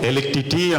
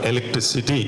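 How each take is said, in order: First: The word is stammered and comes out garbled. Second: The word is said fluently and in full. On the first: The speaker calls it wrong. "నత్తిగా పలుకుతున్నాడు" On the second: The speaker calls it right. "సరిగా పలుకుతున్నాం మనందరం కూడా"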